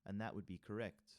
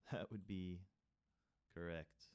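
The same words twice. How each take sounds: First: Said in the usual way. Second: Laughing. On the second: Real, not acted.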